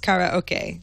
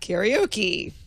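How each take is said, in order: First: It is said with a Japanese-style pronunciation. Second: It is said with the usual English pronunciation. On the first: The speaker calls it right. "having been to Japan, I realized" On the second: The speaker calls it wrong. "it's not karaoke"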